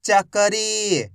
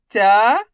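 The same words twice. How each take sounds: First: Whole word in one go, vowels held; syllables joined. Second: Syllable by syllable. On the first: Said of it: "तो मिलके बन जाएगा". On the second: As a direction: break the word into long, separate syllables. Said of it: "एक अक्षर का उच्चारण करके". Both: Shown as a demonstration.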